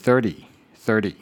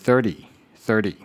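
First: The t is lightly tapped with a relaxed tongue. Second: The same.

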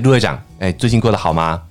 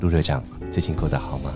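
First: It is spoken at a normal conversational volume. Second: It is spoken quietly and softly, close and intimate.

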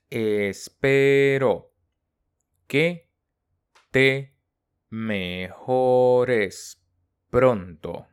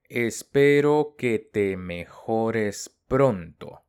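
First: The sentence is spoken slowly and carefully. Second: The sentence is spoken at normal conversational speed.

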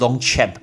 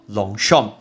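First: The name is pronounced in a non-French way. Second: The name is pronounced the French way. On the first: The speaker calls it wrong. "不要再念Longchamp，不要乱念" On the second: The speaker calls it right. "那是法文的发音叫Longchamp"

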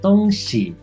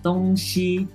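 First: It is said in standard Mandarin. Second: It is said in a Taiwanese accent.

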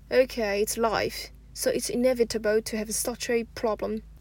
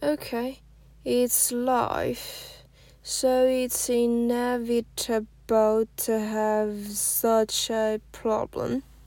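First: It is said at normal conversational speed. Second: It is said slowly, with linking shown.

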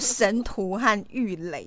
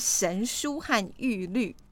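First: The final syllable is pronounced lei. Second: The final syllable is pronounced lü. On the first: The speaker calls it wrong. "我是叫神徒和玉垒这样，所以我都念错" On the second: The speaker calls it right. "所以是神书和玉律"

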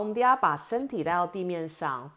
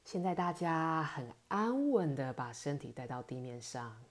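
First: It is her natural, everyday talking voice. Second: It is a put-on, soothing, relaxing voice.

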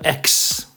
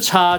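First: The letter sounds like English ex. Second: The letter sounds like Mandarin cha. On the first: The speaker calls it right. "叫做X" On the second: The speaker calls it wrong. "不是叉"

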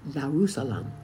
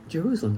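First: The name begins with a Y sound. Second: The name begins with a J sound. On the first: The speaker calls it right. "It is Yerusalem" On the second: The speaker calls it wrong. "Jerusalem is not Jerusalem. There is no J"

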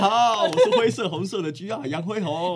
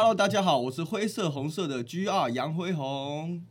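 First: It is said at normal speed. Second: It is said slowly.

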